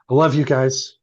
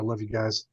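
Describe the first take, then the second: First: It is said in a warm, sincere tone. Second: It is said in a creepy, unsettling tone.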